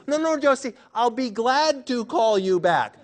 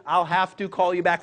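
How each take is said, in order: First: Playful crowd correcting Josie; mock group correction. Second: Said in the usual way. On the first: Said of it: "we're all gonna say". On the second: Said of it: "when you say".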